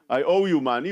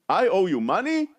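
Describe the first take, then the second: First: It is said as an agreeing statement. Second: It is said as a doubting question.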